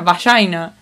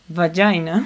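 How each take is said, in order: First: The word is said with Spanish pronunciation. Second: The word is said with English pronunciation. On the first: "se pronuncia vagina" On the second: "En inglés sería vagina"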